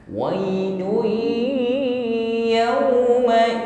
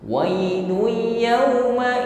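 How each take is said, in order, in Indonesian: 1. Bunyi gabungan itu ada dengung sengau yang ditahan. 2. Bunyi gabungan itu tidak ada dengung sengau. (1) "setelah itu dengungkan" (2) "itu sudah idgham, tapi gunnah atau dengungnya belum"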